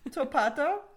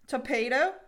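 First: It is said in a British accent. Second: It is said in an American accent.

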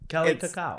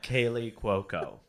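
First: The first name sounds like Kelly. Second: The first name sounds like Kaylee. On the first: The speaker calls it wrong. "that's what I thought her name was Kelly Cacao" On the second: The speaker calls it right. "It's Kaylee Cuoco"

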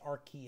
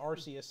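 First: The c is pronounced as a k sound. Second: The c is not pronounced as a k sound. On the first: The speaker calls it right. "so like the C is pronounced like a K? Yeah" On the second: The speaker calls it wrong. "I always thought it was Arceus"

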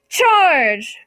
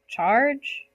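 First: It is yelled confidently. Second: It sounds nervous, like a question.

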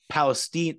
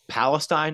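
First: The word is said the local, less familiar way. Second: The word is said the common, familiar way. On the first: The speaker calls it right. "It's pronounced Palestine" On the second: The speaker calls it wrong. "this is not pronounced Palestine"

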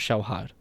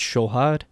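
First: The first vowel glides into a w-like sound. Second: The first vowel is a plain o sound. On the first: This is the Tajik pronunciation in quick speech. "or shohad" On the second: This is the Iranian pronunciation. "In Iran, it's shohad"

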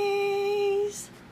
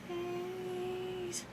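First: The word is said loudly. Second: The word is said softly.

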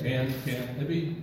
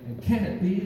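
First: The words are drawn out in an unnatural rhythm. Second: The words run quickly with natural speech urgency. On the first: The speaker calls it wrong. "you would never talk like that" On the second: The speaker calls it right. "it just seems to have a little more urgency"

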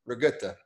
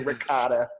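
First: It is pronounced with a g and u: rigutta. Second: It is pronounced with a clear k and o: ricotta. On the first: The speaker calls it right. "It's rigutta" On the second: The speaker calls it wrong. "Definitely don't say ricotta"

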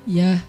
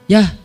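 First: The word sounds soft and friendly. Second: The word sounds curt and harsh. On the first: This is how the writer meant the reply. "Padahal dia kalau jawab ya" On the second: This is how the reader takes the reply. "Tapi kita ya. Kan beda kan. Kasar banget sih ya"

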